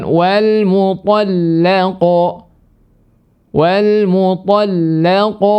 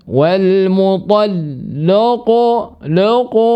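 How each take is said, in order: First: "mutallaqu" chanted slow and high with a thin, clear "la"; lam kept thin. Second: "mutallaqu" chanted slow and high with "lo" for "la"; lam wrongly thickened. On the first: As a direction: draw out "mutallaqatu", keeping the lam light as "la". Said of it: "Harusnya dibaca dengan". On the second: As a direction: thicken the lam in "laqu" into a rounded "lo". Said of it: "bukan lo". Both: Shown as a demonstration.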